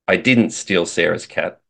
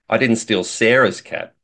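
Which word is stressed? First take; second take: didn't; sarah's. First: The word "didn't" is stressed. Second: The word "Sarah's" is stressed. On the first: The speaker denies doing it at all. "says that I didn't do it" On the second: The speaker took someone else's cat. "implies that maybe I stole somebody else's cat"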